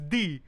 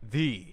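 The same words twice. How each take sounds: First: The word is said in a Filipino accent. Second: The word is said in an American accent. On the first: "I'm a Filipino, it's the" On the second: "Instead of saying it like American, it's like the"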